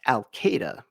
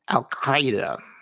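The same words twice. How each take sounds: First: It is said with plain English sounds. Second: It is said with throaty Arabic consonant sounds. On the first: The speaker calls it wrong. "It's often pronounced Al Qaeda because the actual sound is so freaking hard" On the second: The speaker calls it right. "But it's pronounced Al Qaeda. Well, sort of"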